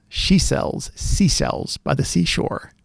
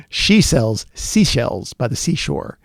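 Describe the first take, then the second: First: Whispered. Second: Said in the usual way. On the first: Shown as a demonstration. Testing mic sibilance on a tongue twister, whispered. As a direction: whisper it slowly, stretching the s sounds. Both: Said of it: "I'm gonna talk with some sibilants here".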